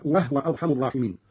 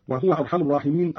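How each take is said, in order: First: "وهو" as wahwa; vowelless ha. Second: Said in the usual way. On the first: Shown as a demonstration. Teacher showing Qalun's reading, "وهو" said wahwa. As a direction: close "وهو" on the h: wah-wa. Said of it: "بإسكان الهاء هكذا". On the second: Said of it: "أيضًا بإسكان الهاء هكذا".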